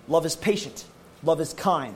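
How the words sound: Spoken in a firm, commanding way. It is a command to follow. The speaker calls it right. "frankly, it's an order. This is what it is"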